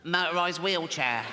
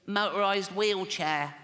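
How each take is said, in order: First: Put-on a lighter version of the strained child's voice; a hint of the kid voice, less pushed; the voice again, a little lighter. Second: Put-on slow, strained child's voice, far from his own. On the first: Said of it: "I wouldn't do the voice". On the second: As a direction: drag out the words like a small boy who is struggling. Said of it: "I promised Jane I wouldn't do the voice".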